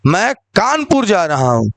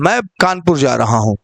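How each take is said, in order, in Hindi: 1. बल शब्द कानपुर पर है। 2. बल शब्द मैं पर है। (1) "कानपुर पे बल दिया जा रहा है" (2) "इसमें आपको मौ बताया जा रहा है"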